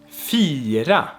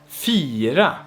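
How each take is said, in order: The two takes are said the same way.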